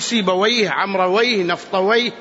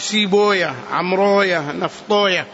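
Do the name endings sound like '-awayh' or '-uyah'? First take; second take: -awayh; -uyah. First: The names end in an '-awayh' sound. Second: The names end in a '-uyah' sound. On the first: This is how grammarians pronounce these names. "وعلى لغة أهل اللغة لهجة النحاة تقول" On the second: This is how hadith scholars pronounce these names. "على لغة المحدثين تلفظها كذا"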